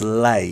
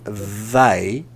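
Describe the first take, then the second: First: The word begins with an l sound. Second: The word begins with a th sound. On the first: The speaker calls it wrong. "you're saying l, so it becomes lay" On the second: The speaker calls it right. "instead of saying th"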